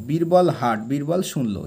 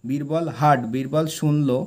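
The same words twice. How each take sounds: The two takes are said the same way.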